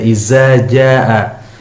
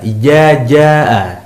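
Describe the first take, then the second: First: The dh sound is replaced by a z. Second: The dh sound is replaced by a j. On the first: "huruf dzal seringkali diganti dengan huruf zai" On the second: "huruf dzal diganti dengan huruf jim"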